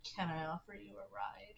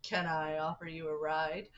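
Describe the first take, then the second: First: Much softer, hushed offer of a ride; a quiet, faintly creepy invitation; headcanon Ford. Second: Lightly voiced friendly offer, a touch lower; a hint of a polite stranger, rising at the end; halfway Ford voice. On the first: Acted. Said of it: "That's how he says it in my headcanon". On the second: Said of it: "I know he doesn't say it like it, but that's how I'm gonna read it".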